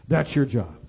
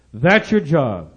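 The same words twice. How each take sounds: First: Low, soft, matter-of-fact handing over; quiet charge. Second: "That's your job" slow and firm, each word weighted; emphatic charge. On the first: Finance minister telling a religious leader his duty, quietly. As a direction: lay the duty down softly and low. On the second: Finance minister charging a religious leader, "That's your job" slow and emphatic. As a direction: drive home "That's your job" slowly, at full voice. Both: Retold or imitated.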